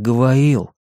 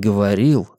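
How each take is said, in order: First: The word is pronounced the way a child would. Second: The word is pronounced in the standard adult way.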